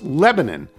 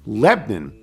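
First: It is said in the general local pronunciation. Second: It is said with a Pennsylvania Dutch-influenced pronunciation. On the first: The speaker has no Pennsylvania Dutch-speaking family. "Lebanon is pronounced Lebanon" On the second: The speaker has Pennsylvania Dutch-speaking family. "in which case it is pronounced Lebanon"

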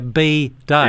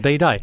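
First: A clear pause separates the two words. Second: The two words run together without a pause. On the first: It names the day for bees. The speaker calls it right. "I need to leave a bigger pause there" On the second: It sounds like a different word. The speaker calls it wrong. "as opposed to"

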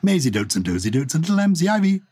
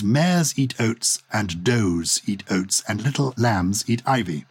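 First: The words are said quickly and run together. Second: The words are said slowly and kept separate.

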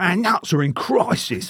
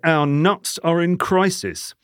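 First: It is read in an imitated celebrity voice. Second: It is read in the speaker's ordinary voice. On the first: It is about how stressed people are. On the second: The headline is about conkers.

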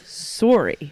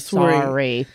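First: Sorry is said with a Canadian accent. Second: Sorry is said with an American accent. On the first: "because we say sorry" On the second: "You don't say sorry"

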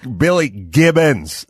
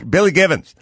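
First: The name is said slowly with a clear 'b' sound. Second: The name is said quickly with a blurred, 'v'-like sound. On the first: This is the careful way people do not usually say it. "But they don't go" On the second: This is the fast way people usually say it. "They go, ... And it just kind of blows by"

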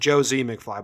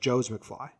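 First: A separate 'zee' syllable follows Joe. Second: Joe and the z sound form one syllable. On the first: This is the speaker's habitual way of saying it. The speaker calls it wrong. "I always pronounce it Joe Z McFly" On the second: This is how the name actually goes. The speaker calls it right. "but it's Joe's McFly"

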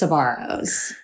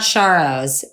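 First: The name begins with 's' followed by 'b'. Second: The name begins with an 'sh' sound. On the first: The speaker calls it right. "it's Sbarro's" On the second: The speaker calls it wrong. "it's not Sharro's"

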